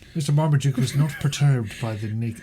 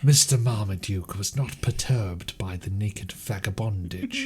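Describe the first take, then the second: First: It is read in his normal voice. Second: It is read in a put-on character voice.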